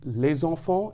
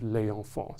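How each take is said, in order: First: The s sound links into the following vowel. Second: The s sound is dropped before the vowel. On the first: The speaker calls it right. "we will very much merge or fuse the sounds of the vowel... the vowel as well as the consonant, resulting in" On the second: The speaker calls it wrong. "instead of"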